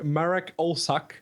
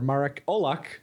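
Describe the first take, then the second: First: The surname is said with an anglicized pronunciation. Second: The surname is said with a Polish pronunciation. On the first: The speaker calls it wrong. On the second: The speaker calls it right.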